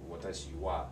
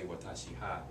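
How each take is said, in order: First: The particle is pronounced with a w sound. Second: The particle is pronounced with an h sound. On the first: The speaker calls it right. "it's watashi wa" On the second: The speaker calls it wrong. "You don't say watashi ha"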